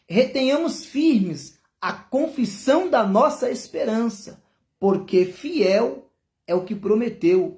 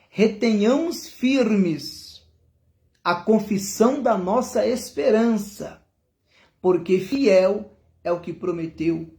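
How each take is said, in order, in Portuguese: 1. O versículo é lido em ritmo normal. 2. O versículo é lido em ritmo mais devagar.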